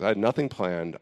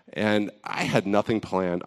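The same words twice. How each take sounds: First: "nothing" punched as the key word; repeating it, hitting "nothing" hard; stress on nothing. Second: Slow, with "had" leaned on and drawn out; confessing to the group, slowly pressing "had"; stress on had. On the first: Repeating her confession to the group, stressing "nothing". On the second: Admitting to the group, leaning on "had". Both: Real, not acted. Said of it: "I'm just being honest with you guys".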